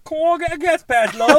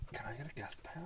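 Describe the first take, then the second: First: Much higher, louder put-on [name]. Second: Whispered quote. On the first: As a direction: belt it out like [name] asking for a pass. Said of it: "Can you say it in an [name] voice?". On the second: Retold or imitated. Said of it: "she's like".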